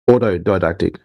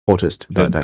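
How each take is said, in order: First: The second syllable is a plain 'to' sound. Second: The second syllable is said as 'tist'. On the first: The speaker calls it right. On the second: The speaker calls it wrong.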